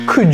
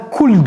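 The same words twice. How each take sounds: First: It is said with English sounds. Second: It is said with French-style sounds. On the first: The speaker calls it right. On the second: The speaker calls it wrong.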